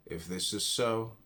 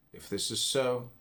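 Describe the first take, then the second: No difference in how they are said.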